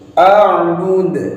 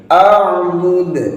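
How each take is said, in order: First: The final d ends with an audible bounce. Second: The final d ends with an audible bounce.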